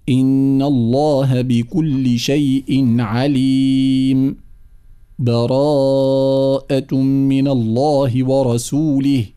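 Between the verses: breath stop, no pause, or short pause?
short pause. It has a brief pause without breath between verses.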